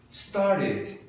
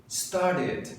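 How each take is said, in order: The two takes are said the same way.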